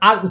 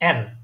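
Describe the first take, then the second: First: The letter name is said plainly, not throaty. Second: The letter name is said from the throat. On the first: This is the usual English way. "আমরা ইংরেজিতে নর্মালি আমরা আর উচ্চারণ করি" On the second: This is the German way. "একটু গলা থেকে, একটু কণ্ঠের মাঝখান থেকে এটা উচ্চারণ হয়"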